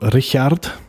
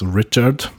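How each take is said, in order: First: The name is said with a German pronunciation. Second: The name is said with an English pronunciation. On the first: This is the name as used in Germany. "when we moved to Germany, so it changed to Richard" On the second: This is the name as used in English. "in English, it's written like Richard is Richard"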